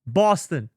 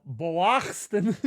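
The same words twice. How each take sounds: First: Said in the usual way. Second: "Boston" drawn out slowly as an odd misspelling; stretched, mangled "Boston", read as written; mock mispronunciation. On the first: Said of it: "How I say Boston is totally fine". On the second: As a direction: sound out "Boston" slowly with an exaggerated, distorted first syllable. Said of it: "why are you writing it like that".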